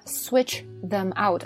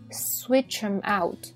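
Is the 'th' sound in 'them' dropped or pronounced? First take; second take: pronounced; dropped. First: The th in them is fully pronounced. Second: The th is dropped and the words run together. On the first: "switch them out 好费劲" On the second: "口语中美式英语就会省略th ... 这样就连读了"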